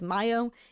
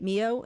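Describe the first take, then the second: First: The first vowel sounds like 'eye' in 'my'. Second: The first vowel sounds like 'ee' in 'see'. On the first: The speaker calls it right. "It is Mayo" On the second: The speaker calls it wrong. "I've been pronouncing it Mio"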